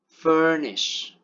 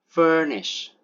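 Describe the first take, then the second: No difference in how they are said.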